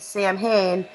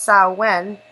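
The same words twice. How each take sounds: First: The name is said as its spelling suggests. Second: The name is said the traditional Irish way. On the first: The speaker calls it wrong. "what I would say would be Samhain" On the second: The speaker calls it right. "it's actually pronounced Samhain"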